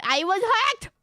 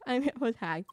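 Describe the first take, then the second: First: High, loud, hammed-up protest; mock outcry. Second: Said in the usual way. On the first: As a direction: blurt it out in mock desperation. Hammed-up excuse in role-play.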